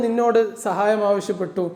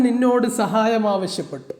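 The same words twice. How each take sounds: The two takes are said the same way.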